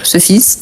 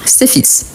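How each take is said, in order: First: "ce fils" with rounded schwa-like vowel in "ce"; singular "ce" vowel. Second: "ces fils" with spread e vowel in "ces"; plural "ces" vowel. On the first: Teacher shows the singular, "ce fils" with rounded vowel. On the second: Teacher shows the plural, "ces fils" with spread e vowel. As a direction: say "ces" in "ces fils" as "sé", lips unrounded. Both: Shown as a demonstration. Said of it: "La prononciation".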